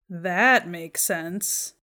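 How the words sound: It sounds sarcastic, with emphasis on another word. It actually doesn't make sense or the listener is annoyed. "put the emphasis on a different word or syllable"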